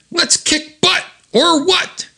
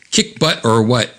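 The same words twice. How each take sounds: First: Very high, excited comic-book cry; high-pitched call to battle; gung-ho rallying cry. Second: Said in the usual way. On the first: Acted. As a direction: pipe it up high to fire up the team. Acted rallying cry, then quoted plainly. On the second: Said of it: "we used to say things like that".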